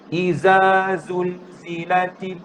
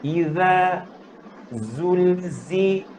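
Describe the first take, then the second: First: The first consonant is a plain buzzing z. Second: The first consonant has the tongue between the teeth. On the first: The speaker calls it wrong. "jangan semuanya ... Sama bunyi zal dengan zai lah" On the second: The speaker calls it right. "mula-mula keluar lidah"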